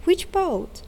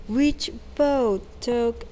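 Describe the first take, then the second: First: Much higher, astonished and emphatic; astonished exclamation. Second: A bright surprised exclamation; exclaiming. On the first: Tick repeating the question to Took, astonished. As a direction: push the surprise further on the repeat. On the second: Tick surprised by Took's idea, exclaiming. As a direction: blurt it out in surprise. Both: A narrator's reading. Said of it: "exclaimed Tick".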